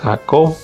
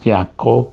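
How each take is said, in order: First: The name is said with a Spanish pronunciation. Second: The name is said with a Hebrew pronunciation.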